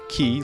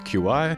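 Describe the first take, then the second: First: The name is said like the word key. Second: The name is said as two letters, Q I. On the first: "like Key E Y or Key I" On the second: "the other ways people think there are to say Mister Chi"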